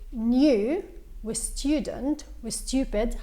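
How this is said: A y-glide comes before the 'oo' vowels. "هيدا النطق البريطاني"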